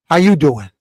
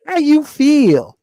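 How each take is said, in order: First: Said in the usual way. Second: High, slow, soft mocking greeting. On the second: Mocking how young brothers greet, high and slow. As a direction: mimic the soft new greeting. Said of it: "somebody says to you".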